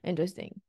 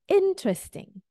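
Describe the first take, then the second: First: The stress falls on a later syllable. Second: The stress falls on the first syllable. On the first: The speaker calls it wrong. "So it's not interesting" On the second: The speaker calls it right. "It's interesting"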